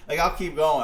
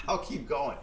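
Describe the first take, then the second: First: 1 louder insistence. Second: Said in the usual way. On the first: Real, not acted. Repeats phrase, second louder.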